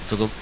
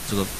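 Both takes have the same delivery.

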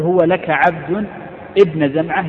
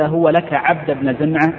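First: There is a break after 'abd' before 'ibn Zam'a'. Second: The phrase runs on without a break after 'abd'. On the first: The child is given as a slave to the son addressed. "يعني يا ابن زمعة" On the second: The child is given to the man addressed by his full name. "أي هو لك يا عبد ابن زمعة"

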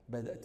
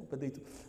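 First: The word has a glottal stop before the ending. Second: The glottal stop is replaced by a y sound.

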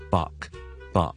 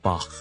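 First: The name is said with an anglicized pronunciation. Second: The name is said with a German-like pronunciation. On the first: "英文化嗰个咧，我哋叫Bach" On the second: "比较接近佢原文嘅发音咧，我哋系读Bach"

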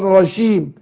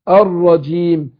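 First: The j sound is soft and hissing like sh. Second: The j sound is voiced with a full stop. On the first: The speaker calls it wrong. "أخليها زي الشين فيها تفشي زي الشين" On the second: The speaker calls it right. "حبس للنفس والصوت"

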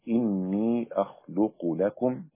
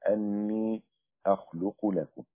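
First: The first word begins with an 'i' vowel. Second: The first word begins with an 'a' vowel. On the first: The phrase starts a new statement. "بكسر الهمزة على الاستئناف" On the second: The phrase explains what the sign is. "بفتح الهمزة على التفسير لكلمة آية"

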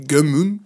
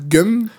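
First: The name is said as two syllables. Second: The name is said as one short syllable. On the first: "ma prononciation japonaise" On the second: "la prononciation européenne"

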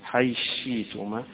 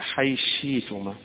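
First: Th merges into sh; the glottal stop becomes y. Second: The same.

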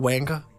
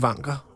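First: The name is pronounced the English way. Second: The name is pronounced the Danish way. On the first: "hvis man ønsker at anglificere det" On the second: "Jeg tror, jeg vælger den danske version"

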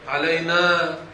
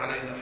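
First: The final vowel is long. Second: The final vowel is short. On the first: The speaker calls it right. "هكذا نطقت بالألف" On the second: The speaker calls it wrong. "ما في كلمة علينا"

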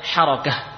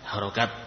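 First: The word ends in an h sound. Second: The word ends in a t sound. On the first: The speaker calls it right. "Sebenarnya apa? Harokah. bukan harokat" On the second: The speaker calls it wrong. "kita mungkin menyebutnya harokat"

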